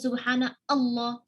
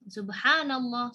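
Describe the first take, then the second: First: Allah starts with a separate vowel after subhana. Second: Subhana runs straight into llah without a break. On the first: The speaker calls it wrong. "Kita enggak baca subhana Allah" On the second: The speaker calls it right. "Enggak. Subhanallah"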